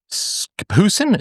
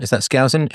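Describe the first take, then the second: First: "Skousen" said as SKOO-sen with a rising, unsure tone; first guess at a name. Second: "Skousen" said as SKOW-zen, checking; corrected name. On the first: Host reading a listener's message, unsure of "Skousen", tries SKOO-sen. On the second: Host rechecking the name "Skousen", says SKOW-zen questioningly. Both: Shown as a demonstration.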